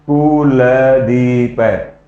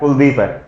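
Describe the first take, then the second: First: It is said slowly and flatly. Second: It is said at a normal speed.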